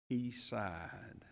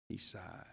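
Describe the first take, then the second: First: Said in the usual way. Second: Much softer, dropped low and slow; soft echo. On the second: Shown as a demonstration. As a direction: let it fall to a hush. Repeats quote much softer, dwelling.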